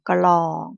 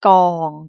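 First: The initial cluster includes a clear L sound. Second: The initial cluster has no L sound. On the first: It means a drum. The speaker calls it right. "คุกกุ้งจะอ่านออกเสียงกอไก่กับลอลิง" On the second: It means a pile. The speaker calls it wrong. "ไม่อ่านออกเสียงลอลิงด้วย"

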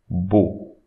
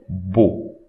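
No difference in how they are said.

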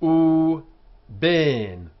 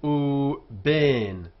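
First: The second word starts with a b sound. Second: The second word starts with a b sound.

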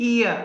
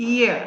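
The two takes are said the same way.

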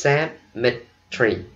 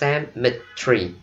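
First: British accent, squeezed into three syllables. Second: British accent, squeezed into three syllables.

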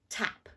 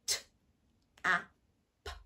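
First: The word is said as one smooth piece. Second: The word is broken into three separate sounds. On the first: "the first thing we've got to do is to say it really clearly" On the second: "speak like a robot and chop it up into the sounds"

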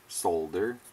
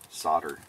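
First: The word is said in a non-American pronunciation. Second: The word is said in an American pronunciation. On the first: "as the rest of the world says" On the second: "Us Americans pronounce things funny"

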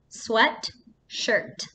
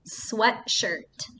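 First: The word is said with a break inside. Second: The word is said smoothly, with no break. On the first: The word is shown as two separate smaller words. "break it apart into two words, into two parts" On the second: It is a single compound word. "take one word"

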